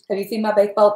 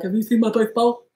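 First: "baked bowl" said with a lisp, mouth half numb; numb-mouth slur. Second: Husband teasing, slurring "baked bowl" with a thick tongue; mocking numb-mouth slur. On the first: Retold or imitated. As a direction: talk as if the jaw were numb after a root canal. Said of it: "That's what I sounded like". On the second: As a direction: echo her numb speech to tease her. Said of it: "my husband was like".

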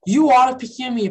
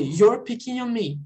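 First: "You are" in two full words, stressed; forma não abreviada. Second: "You're" contracted into one syllable; forma abreviada. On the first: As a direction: say "You are" uncontracted, hit firmly. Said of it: "abreviaria se fosse o". ("You are" por extenso, sem contrair) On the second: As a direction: run "You are" together as "You're". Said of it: "Poderia dizer". ("You're" contraído, numa sílaba só) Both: Shown as a demonstration.

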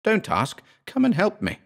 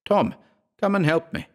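First: Higher, more desperate cry for help; frantic plea. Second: High, pleading call for help; desperate plea. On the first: Terrified narrator begs again. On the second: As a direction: beg for help in panic. Trapped narrator begs for help. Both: Acted.

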